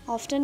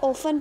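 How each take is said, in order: First: A t sound is heard after the f. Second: No t sound is heard after the f. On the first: The speaker calls it wrong. "ऑफ्टन नहीं पढ़ेंगे" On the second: The speaker calls it right. "इसको ओफन पढ़ेंगे, टी is silent"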